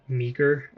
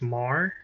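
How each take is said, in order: First: The name is pronounced like 'Meager'. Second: The name is pronounced like 'Mar'. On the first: The speaker calls it wrong. "not Meager" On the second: The speaker calls it right. "the pronunciation of this name is Mar"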